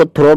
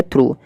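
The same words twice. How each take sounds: First: "through" wrongly said with an o, like "throw"; mispronounced THROUGH. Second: "through" with a long oo, like "throo"; correct THROUGH pronunciation. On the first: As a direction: say "through" to rhyme with "go". इसको through मत पढ़ना. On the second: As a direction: say "through" to rhyme with "too". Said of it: "इसकी जो pronunciation है वो है through". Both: Shown as a demonstration.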